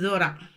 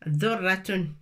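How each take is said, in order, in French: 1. Le son r est court et simple. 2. Le son r est double et tenu plus longtemps. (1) "لا نقول ذرة" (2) "c'est الشدة"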